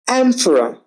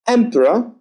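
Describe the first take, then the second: First: Emperor opened with a flat wide a, "amperor"; ae vowel. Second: Emperor opened with a short eh. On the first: Teacher modelling the vowel pair, flat a second. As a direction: stretch the mouth wide on "emperor". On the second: Teacher modelling the vowel pair, short e first. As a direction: say "Emperor" with an eh start. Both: Shown as a demonstration. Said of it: "Fend, fanned".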